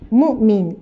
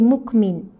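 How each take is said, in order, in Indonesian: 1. Konsonan tengahnya hamzah. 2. Konsonan tengahnya bunyi k. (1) "kalau ikut ejaan lah mukmin" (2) "tapi sebab dah dimelayukan jadi mukmin"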